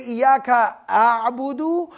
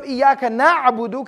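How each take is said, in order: First: "Iyaka a'budu" recited slowly, a'budu as I worship; slow, hypothetical recitation of "Iyaka a'budu"; altered singular form. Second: "Iyaka na'budu" recited slowly, na'budu as we worship; slow careful Quranic wording "Iyaka na'budu"; Arabic plural form. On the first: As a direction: draw out "a'budu" as a questioned alternative. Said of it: "can I say". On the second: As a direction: chant "na'budu" with a long na- vowel. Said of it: "instead of". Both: Shown as a demonstration.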